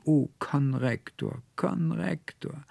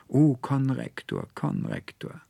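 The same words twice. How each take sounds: First: Much higher, slow, anguished wail of the name; heartbreaking cry. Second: Said in the usual way. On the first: Acted. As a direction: cry it out as if your heart breaks. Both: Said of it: "rief noch einmal ganz herzbrechend".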